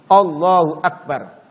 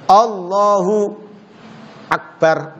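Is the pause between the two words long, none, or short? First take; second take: none; short. First: The words run together with no pause. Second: There is a short pause between the words.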